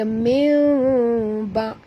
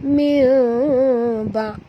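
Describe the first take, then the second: Both takes have the same delivery.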